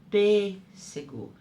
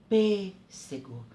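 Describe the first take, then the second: Both takes have the same delivery.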